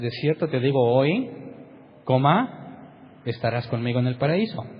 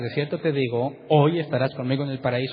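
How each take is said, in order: First: The pause comes after the word hoy. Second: The pause comes before the word hoy. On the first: The promise is made today, without saying when. The speaker calls it right. "la forma correcta de leerlo es" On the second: They will be in paradise that same day. The speaker calls it wrong. "El problema es las comas que lees en el original"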